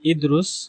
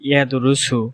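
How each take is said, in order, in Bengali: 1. এটি সংক্ষিপ্ত কথ্য আঞ্চলিক রূপে উচ্চারিত হয়। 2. এটি পূর্ণাঙ্গ প্রমিত আরবি রূপে উচ্চারিত হয়। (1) "আরবরা আঞ্চলিক ভাষায় বলে" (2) "আমরা যখন বিশুদ্ধ আরবিতে কথা বলি তখন কি বলি"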